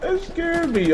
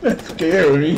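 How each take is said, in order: First: Very high squeaky retelling; high excited repeat. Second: Loud startled exclamation; startled exclaim. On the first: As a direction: say it again, still rattled. Repeating after huh. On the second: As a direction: blurt it out, shaken. Reacting to the blast. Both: Real, not acted.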